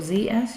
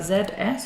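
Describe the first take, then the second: First: The letter Z is said as zee. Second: The letter Z is said as zed.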